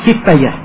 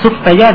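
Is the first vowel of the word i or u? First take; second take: i; u. First: The first vowel is an i sound. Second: The first vowel is an u sound. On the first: "atau dibaca siftaya" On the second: "dibaca suftaya"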